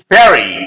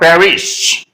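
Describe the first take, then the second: First: The final s sound is silent. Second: The final s sound is pronounced. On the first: It follows French pronunciation. "the last letter is not pronounced by the French people" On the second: It follows English pronunciation. "not Paris"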